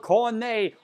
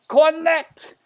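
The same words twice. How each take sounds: First: The name is pronounced the French way. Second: The name is pronounced the English way.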